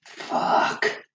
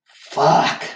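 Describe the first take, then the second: First: Soft, whispery swear under the breath; deflated curse. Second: Higher, sharper outburst; frustrated curse. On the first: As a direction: let the curse out as a hushed breath. Retelling his reaction to broken mower. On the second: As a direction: repeat the swear with more force. Repeats the curse, louder. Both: Retold or imitated.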